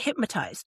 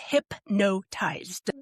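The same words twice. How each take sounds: First: The word is said with an M sound. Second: The word is said with an N sound. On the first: The speaker calls it wrong. "there's no M in it" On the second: The speaker calls it right. "It's hypnotized"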